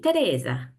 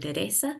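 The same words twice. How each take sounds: First: The name is said with an Italian accent. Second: The name is said with a Spanish accent.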